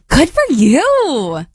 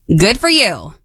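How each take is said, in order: First: It sounds warm and supportive. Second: It sounds angry and harsh.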